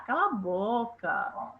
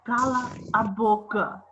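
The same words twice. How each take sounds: First: It is said lightly, in a joking tone. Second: It is said firmly, as a stern order. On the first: It is a friendly joke between peers. "Vocês falam um para o outro assim" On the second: It is a real order to stop talking. "soou assim, ó, como um mando"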